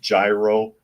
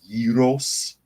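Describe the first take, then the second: First: The word has an anglicized pronunciation. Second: The word has a Greek-style pronunciation. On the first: This is how many people commonly say it. The speaker calls it wrong. "a lot of people pronounce it gyro" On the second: This is the original Greek pronunciation. The speaker calls it right. "it's a Greek word and it's pronounced gyros"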